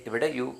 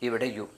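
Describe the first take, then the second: No difference in how they are said.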